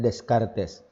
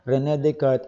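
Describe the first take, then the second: First: The name is read out just as it is spelled. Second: The name is said the French way, not as spelled. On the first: The speaker calls it wrong. "kung babasahin natin" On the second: The speaker calls it right. "the proper pronunciation is"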